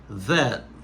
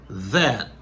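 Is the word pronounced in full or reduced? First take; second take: full; full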